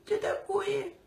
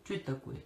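First: Very high squeaky voice. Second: Said in the usual way. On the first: Retold or imitated. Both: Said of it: "Кто таким писклявым голосом у нас говорит?".

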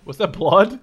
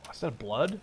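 First: Loud, rising disbelief; surprised shout. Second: Said in the usual way. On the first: Real, not acted. Gamer startled by blood on screen, loud and rising. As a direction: blurt it out in shock.

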